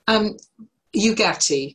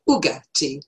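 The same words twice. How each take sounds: First: The name is said with English pronunciation. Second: The name is said with Italian pronunciation.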